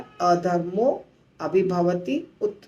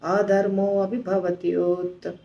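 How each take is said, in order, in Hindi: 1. आखिरी शब्द अलग-अलग टुकड़ों में बाँटकर बोले जाते हैं। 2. आखिरी शब्द आपस में जुड़कर एक ही रूप में बोले जाते हैं। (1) "अलग अलग बोलेंगे तो आसान हो जाएगा" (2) "ऐसे बोलना है"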